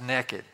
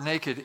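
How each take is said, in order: First: It is said with a Tennessee accent. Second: It is said with a standard accent.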